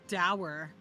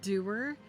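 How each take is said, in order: First: The word rhymes with 'power'. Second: The word rhymes with 'poor'. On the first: The speaker calls it wrong. "I have been saying the word doer as dower" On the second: The speaker calls it right. "the word doer"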